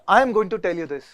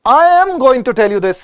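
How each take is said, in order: First: It is said flatly with low energy. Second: It is said loudly with lively energy. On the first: The speaker calls it wrong. "अगर अब मैं ऐसे डल करूं ना" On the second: The speaker calls it right. "बड़ा बड़ा exaggerated movement चाहिए होता है"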